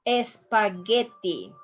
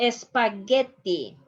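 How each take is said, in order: Both takes have the same delivery.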